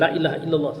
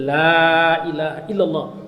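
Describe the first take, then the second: First: The vowel in the first word is short. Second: The vowel in the first word is long. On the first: The word means truly. The speaker calls it wrong. "bukan ... salah ya" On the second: The word means no. The speaker calls it right. "kalau la panjang, lam nahi, itu artinya tidak. Jadi"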